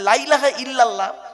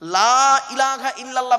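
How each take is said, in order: First: The vowel of the first word is cut short. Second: The vowel of the first word is drawn out long. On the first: Certainly there is a god besides Allah. The speaker calls it wrong. "লামটা তখন তাকিদের মানে হবে" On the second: There is no god but Allah. The speaker calls it right. "লয়াকারে টান দেবেন, লাতে টান আছে"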